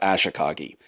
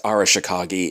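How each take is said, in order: First: The name is said with four syllables. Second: The name is said with five syllables. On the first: The speaker calls it wrong. "and not Ashikagi" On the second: The speaker calls it right. "I'm aware it's Arashikagi"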